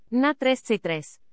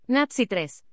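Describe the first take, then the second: First: Slow, "tres" drawn out long at the end; lengthened final syllable. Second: Said in the usual way. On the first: Shown as a demonstration. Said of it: "las sílabas finales son largas". (alargando la sílaba final "tres") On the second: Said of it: "En la representación fonológica no hay distinción".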